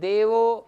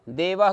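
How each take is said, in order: First: The word ends in an 'o' sound. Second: The word ends in an 'ah' sound. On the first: The speaker calls it right. "तो उस समय देवो ऐसा कहना पड़ेगा" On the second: The speaker calls it wrong. "आप पढ़ते समय तो ये कह रहे हो देवः ग्रामम गच्छति"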